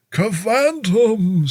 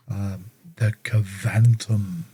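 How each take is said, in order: First: High, slow spooky exclamation; spooky Halloween voice. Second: Said in the usual way. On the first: Shown as a demonstration. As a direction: draw it out like a Halloween ghoul. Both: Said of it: "Sounds like something for, um, Halloween".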